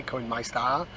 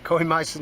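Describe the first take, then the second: First: Put-on "Coinmeister" said lower and softer in a lightly done North Wales accent, rising at the end; a rubbish North Wales accent on "Coinmeister", lower and softer; self-mocking quick North Wales accent "Coinmeister" with an upward lilt. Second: Said in the usual way. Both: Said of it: "There's the impression".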